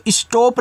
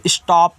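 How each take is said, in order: First: स्टॉप misread as "ish-tope", long o; wrong long-o reading. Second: स्टॉप said as "ish-taap", open vowel; correct open-vowel reading. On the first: Teacher warning learners off a misreading, स्टॉप as "ish-tope". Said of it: "इसको स्टॉप नहीं पढ़ना". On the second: Teacher showing learners the proper reading, स्टॉप as "ish-taap". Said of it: "इसको स्टॉप पढ़ना है". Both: Shown as a demonstration.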